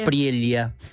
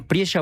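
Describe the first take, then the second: First: The double L sounds like 'ly'. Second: The double L sounds like 'sh'. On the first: The speaker calls it wrong. "como uno podría pensar" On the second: The speaker calls it right. "pronuncian la elle como nosotros"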